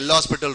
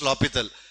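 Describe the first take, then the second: First: The name is said with an s sound. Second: The name is said without an s sound. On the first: The speaker calls it wrong. "Some people will say L'Hospital rule" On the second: The speaker calls it right. "the actual pronunciation is L'Hopital"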